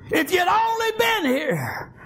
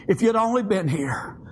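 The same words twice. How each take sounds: First: Drawn-out crying plea of a retold sister; impassioned plea. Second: Said in the usual way. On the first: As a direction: cry out the reproach, stretching each word. Sister's plea repeated with force.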